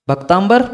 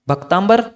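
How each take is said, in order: The two takes are said the same way.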